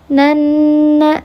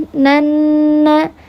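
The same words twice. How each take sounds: The two takes are said the same way.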